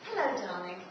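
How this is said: It sounds warm and genuine.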